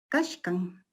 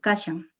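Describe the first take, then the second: First: It is said in the Chanca variety. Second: It is said in the Cusco Collao variety. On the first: This is a neighbouring variety. "quechua chanca es kashkan" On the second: This is the speaker's own variety. "yo digo como está, como lo pronuncio, kashan, quechua Cusco Collao"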